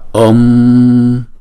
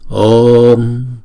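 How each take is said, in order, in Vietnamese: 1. Nguyên âm O ngắn trước khi khép lại. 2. Nguyên âm O được kéo dài trước khi khép lại. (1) "Chứ chúng ta không đọc là om" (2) "Chữ O kéo dài hai nhịp trước rồi chúng ta mới đóng chữ O đó lại"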